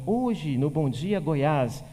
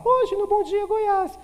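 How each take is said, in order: First: Said in the usual way. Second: Much higher anchor voice. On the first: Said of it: "ele tava falando assim". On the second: Shown as a demonstration. Teacher demonstrates raised pitch with a squeaky, higher news intro. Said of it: "Ele vai falar".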